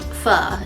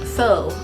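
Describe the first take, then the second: First: The vowel sounds like the 'u' in 'fun'. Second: The vowel sounds like the 'o' in 'go'. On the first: The speaker calls it right. "but it's actually pronounced pho" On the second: The speaker calls it wrong. "we phonetic people who taught second grade would have pronounced that faux"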